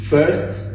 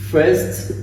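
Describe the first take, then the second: No difference in how they are said.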